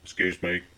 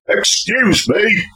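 First: It is said quietly and politely. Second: It is said loudly and angrily.

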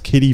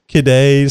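First: The name is said in a plain way. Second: The name is said in a fancy way.

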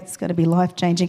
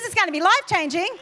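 First: It sounds flat and unenthusiastic. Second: It sounds lively and excited.

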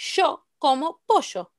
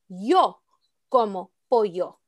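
First: Both y and ll are said with sh. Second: Both y and ll are said with y. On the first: "That's fine" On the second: "without the sh sound"

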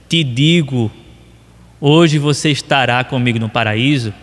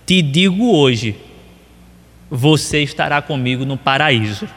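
First: The pause comes before 'hoje'. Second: The pause comes after 'hoje'.

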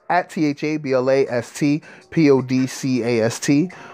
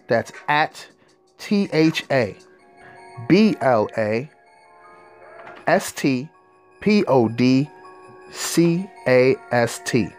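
First: The letters are spelled out at normal speed. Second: The letters are spelled out slowly.

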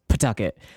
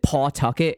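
First: The first syllable is a reduced "puh" sound. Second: The first syllable is a full "paw" sound. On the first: This is how locals say it. "here in Rhode Island, it's Pawtucket, like yeah. P-U-H apostrophe Tucket" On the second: This is how outsiders say it. "everyone pronounces it Pawtucket"

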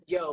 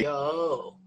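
First: The word is said short and plain. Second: The word is stretched out long.

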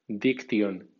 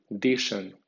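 First: It is read with Spanish letter sounds. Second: It is read with English sounds and stress. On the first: "como si fuera española" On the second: "en pronunciación inglesa"

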